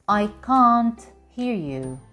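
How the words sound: It is spoken in a British accent.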